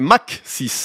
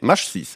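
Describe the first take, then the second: First: The first word ends in a k sound. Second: The first word ends in a sh sound. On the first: The speaker calls it right. "c'est MAC 6, en rapport avec la vitesse des avions" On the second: The speaker calls it wrong. "Oui, MASH 6. Et non"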